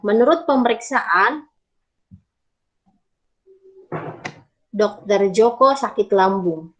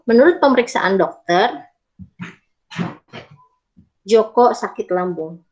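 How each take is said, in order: First: There is a pause before the word dokter. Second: There is a pause after the word dokter.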